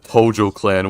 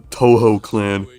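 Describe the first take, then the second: First: The middle consonant is a J sound. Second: The middle consonant is an H sound. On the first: "everyone that, that calls it the Tojo clan" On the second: "Pronouncing your J's as H's"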